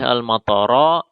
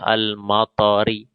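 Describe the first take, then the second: First: The word ends with an a vowel. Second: The word ends with an i vowel. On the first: The noun is in the accusative case. "Tidak boleh al-matara" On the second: The noun is in the genitive case. "tidak boleh al-matari"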